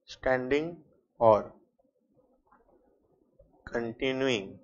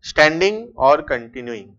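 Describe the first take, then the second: First: Each word spaced out and slow for copying; slow dictation. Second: Said in the usual way. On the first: Shown as a demonstration. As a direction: spell it out word by word for note-taking. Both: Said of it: "point number ई लिखना".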